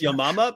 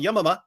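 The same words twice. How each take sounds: First: The word is said at an ordinary pace. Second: The word is said very quickly. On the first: The speaker calls it right. "even though it's Yamama" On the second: The speaker calls it wrong. "I'll say it real fast"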